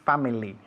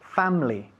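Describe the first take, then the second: First: It is said with three syllables, the middle vowel kept. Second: It is said with two syllables, the middle vowel dropped. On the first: The speaker calls it wrong. "We don't say family in English" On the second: The speaker calls it right. "We say family. The I disappears. Dos sílabas"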